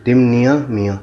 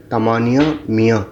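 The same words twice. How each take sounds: First: तिमनिया said with short i in the first syllable, as the book wrongly prints it; misprinted pronunciation. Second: तमानिया with open a-sounds, ta-maa-ni-ya; correct pronunciation. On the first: Teacher reading the book's misprint to students, plain reading. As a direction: read out the misspelt तिमनिया मियाँ exactly as printed. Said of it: "इसमें थोड़ा गलत है". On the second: Teacher giving students the right word after the misprint, clear correction. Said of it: "सही word जो है". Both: Shown as a demonstration.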